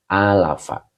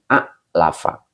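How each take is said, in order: First: The first vowel is drawn out long, with no stop. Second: A short first vowel is cut off by a stop. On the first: The speaker calls it right. "harokatnya berubah menjadi berdiri" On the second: The speaker calls it wrong. "disukun jadi a'lafa"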